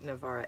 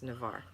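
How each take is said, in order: First: The name ends with an added 'ah' vowel. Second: The name ends without an added vowel. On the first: The speaker calls it wrong. "My stepdaughter pronounced it Navarra" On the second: The speaker calls it right. "it's pronounced Navarre"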